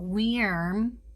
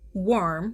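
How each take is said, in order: First: The word is said in an exaggerated, fancy way. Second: The word is said in a plain, ordinary way. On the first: The speaker calls it wrong. "if you want to try to get real fancy, go worm. That's not fancy. That's gross" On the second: The speaker calls it right. "Pronounced worm"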